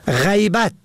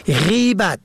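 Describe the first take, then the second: First: غیبت said ghaybat, short a first; غیبت pronounced ghaybat; fatha on first. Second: غیبت said gheybat, short e first; غیبت pronounced gheybat; kasra on first. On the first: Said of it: "به فتح اول". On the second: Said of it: "به کسر اول". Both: Shown as a demonstration.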